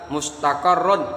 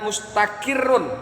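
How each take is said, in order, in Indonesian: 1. Bunyi vokal setelah q adalah 'a'. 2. Bunyi vokal setelah q adalah 'i'. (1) "qafnya udah fathah" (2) "Jadi qafnya kasrah"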